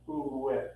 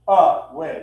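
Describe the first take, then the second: First: The first vowel is a rounded 'ooh' sound. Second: The first vowel is an open 'uh' sound. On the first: The speaker calls it right. "it's ooh way" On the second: The speaker calls it wrong. "such a harsh vowel in the middle of this word"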